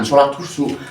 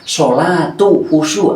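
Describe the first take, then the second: First: The first word ends in a stopped consonant. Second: The first word ends in a linking vowel. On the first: The word is treated as a full stop. The speaker calls it wrong. "jangan sholat khusyuk" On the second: The word connects to the next word. The speaker calls it right. "Harus hidup. Kalau disambung ini harusnya hidup"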